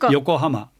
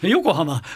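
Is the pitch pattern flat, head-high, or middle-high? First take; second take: middle-high; head-high. First: The pitch is high in the middle, then falls. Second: The pitch is high on the first mora, then falls. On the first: "これは中二高ですね" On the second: "頭だかでしたら"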